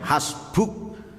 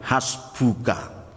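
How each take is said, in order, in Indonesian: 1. Vokal akhir hilang setelah u. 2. Kata ini berakhir dengan vokal akhir yang penuh. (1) "Ketika diwakafkan bisa jadi dibaca hasbuk" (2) "Tapi aslinya adalah hasbuka"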